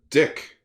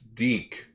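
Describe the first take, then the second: First: The name is said with a short 'i' vowel. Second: The name is said with a long 'ee' vowel. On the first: The speaker calls it wrong. "But we all pronounce it Dick at one point" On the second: The speaker calls it right. "it's Deke"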